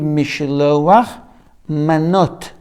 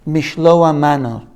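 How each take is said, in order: First: The final consonants of both words are pronounced. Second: The final consonants of both words are dropped. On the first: The speaker calls it right. "Should be" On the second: The speaker calls it wrong. "Some say it incorrectly"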